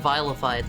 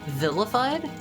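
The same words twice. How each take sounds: First: The first vowel is long, as in vile. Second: The first vowel is short, as in villain. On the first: "like the word vile" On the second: "like, villain?"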